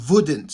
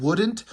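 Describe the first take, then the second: First: "wouldn't" begun with a German V sound; "wouldn't" pronounced as "voodn't". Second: Said in the usual way. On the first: Shown as a demonstration. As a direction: say "wouldn't" with V in place of W. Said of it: "they put a V". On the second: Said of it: "instead of, like, a W".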